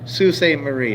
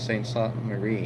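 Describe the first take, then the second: First: The name begins with the sound 'soo'. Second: The name begins with the sound 'saint'. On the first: The speaker calls it right. "okay. Like, yeah, thank you. Like the uh, the Sioux" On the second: The speaker calls it wrong. "I don't know if I'm pronouncing that right"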